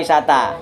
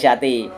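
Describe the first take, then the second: First: The word ends with an a vowel. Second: The word ends with an i vowel. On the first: The speaker calls it right. "Jer jadi Aisyata dibaca Aisyata" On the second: The speaker calls it wrong. "gak Aisyati"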